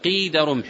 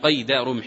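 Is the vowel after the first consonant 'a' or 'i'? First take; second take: i; a. First: The first word has an 'ee' vowel sound. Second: The first word has an 'ay' vowel sound. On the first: The measure of a spear's length. The speaker calls it right. "وإنما يقال قيد رمح، يعني قدر رمح" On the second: Something used to bind or shackle. The speaker calls it wrong. "لا يقال هنا قيد رمح"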